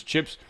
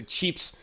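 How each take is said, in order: First: Said in the usual way. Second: "cheeps" with a long ee vowel; imitated regional pronunciation. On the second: Shown as a demonstration. Host showing how one side says chips, "cheeps" with long ee. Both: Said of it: "they say cheeps".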